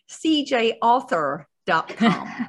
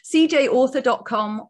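First: It is said in an American accent. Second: It is said in a British accent.

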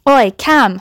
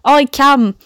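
First: It is said in the speaker's plain voice. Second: It is said in a put-on Yorkshire accent.

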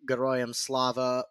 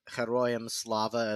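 First: It is said with an anglicized pronunciation. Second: It is said with a Ukrainian pronunciation.

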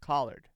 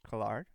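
First: It is said like the vegetable collard. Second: It is not said like the vegetable collard. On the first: The speaker calls it wrong. "or gets pronounced Collard. I'm not a vegetable" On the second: The speaker calls it right. "It gets pronounced the actual way"

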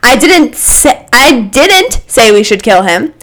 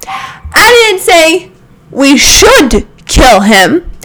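First: The stress falls on the word 'didn't'. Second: The stress falls on the word 'should'.

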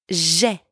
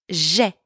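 The two takes are said the same way.

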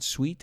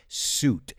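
First: The vowel is a w-glide into ee. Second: The vowel is a long oo sound. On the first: The speaker calls it wrong. "some people say sweet. It's not sweet" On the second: The speaker calls it right. "it's suit"

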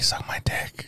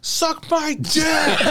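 First: The phrase is said quietly and gently. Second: The phrase is shouted loudly. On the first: The two people feel close. "if we're get close and our hearts are close" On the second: The two people feel far apart. "sometimes I have to yell"

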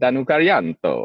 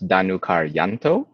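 First: The name is said with Italian-sounding flair. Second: The name is said plainly, without added flair.

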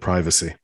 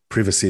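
First: It is said with an American pronunciation. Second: It is said with a British pronunciation. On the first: The speaker calls it right. "instead of privacy" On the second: The speaker calls it wrong. "you said privacy"

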